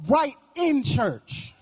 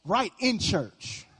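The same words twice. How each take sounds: First: Preacher warning the congregation, slow and emphatic; slow emphatic repeat. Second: Slow sly aside. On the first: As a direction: drag out "Right in church" for weight. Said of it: "He's gonna show up right in church". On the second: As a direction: let "Right in church" slip out slow and knowing. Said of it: "check your Facebook right now". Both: Shown as a demonstration.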